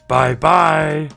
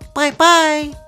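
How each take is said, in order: First: It is said in a big, gruff voice. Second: It is said in a high, squeaky voice.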